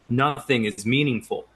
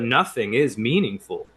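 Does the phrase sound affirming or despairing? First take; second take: despairing; affirming. First: It is said in a flat, despairing way. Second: It is said in an emphatic, affirming way. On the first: Life has no meaning at all. "people say nothing is meaningful if they're despairing of life" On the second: The void itself is full of meaning. "if you say it with a different inflection"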